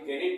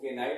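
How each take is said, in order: First: It starts with a k and a short i. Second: It starts with a k and a long i. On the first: "ना ही केनिट पढ़ेंगे" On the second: "केनाइट नहीं पढ़ेंगे"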